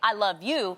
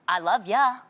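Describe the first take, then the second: First: The last word is a full, clear 'you'. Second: The last word is reduced to a casual 'ya'. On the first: "I won't say "I love you,"" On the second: "I have a different in- inflection"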